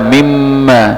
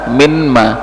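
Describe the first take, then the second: First: The n merges into a doubled m sound. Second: The n is sounded separately before the m. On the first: The speaker calls it right. "minma dibaca mimma" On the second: The speaker calls it wrong. "mim bukan mimma, minma"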